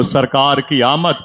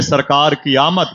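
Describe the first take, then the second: First: Said in the usual way. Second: Louder call. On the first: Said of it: "जरा हाथों को उठा के कह दो". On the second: Shown as a demonstration. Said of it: "ऊंची बोलें".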